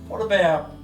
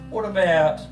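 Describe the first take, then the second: No difference in how they are said.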